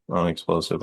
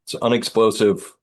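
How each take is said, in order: First: Softer, doubtful repeat of Unexplosive; unsure try. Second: Said in the usual way. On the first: Shown as a demonstration. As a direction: test the word Unexplosive quietly, unsure it is real. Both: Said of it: "I don't know if that's a word".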